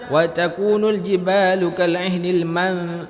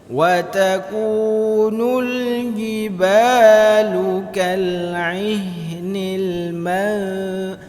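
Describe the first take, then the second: First: The n is pronounced clearly as a separate sound. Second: The n is hidden and nasalized into the next sound. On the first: The speaker calls it wrong. "Jangan dibaca" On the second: The speaker calls it right. "cara membaca ikhfa"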